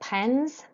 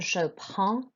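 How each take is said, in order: First: The final D and S are sounded. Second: The final D and S are silent. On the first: The speaker calls it wrong. "you don't say" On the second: The speaker calls it right. "it's the vowel sound"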